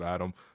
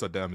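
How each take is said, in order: First: The name is said the Americanized way. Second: The name is said the original, non-Americanized way. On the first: The speaker calls it wrong. "North Americanized him" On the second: The speaker calls it right. "how many people know it's Adem"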